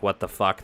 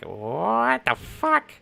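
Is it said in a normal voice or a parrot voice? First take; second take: normal voice; parrot voice. First: It is said in a normal voice. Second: It is said in a squawky parrot voice.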